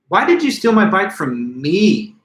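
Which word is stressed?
me. The word "me" carries the main stress. A known thief was not expected to steal from the speaker. "I am placing emphasis on the word me"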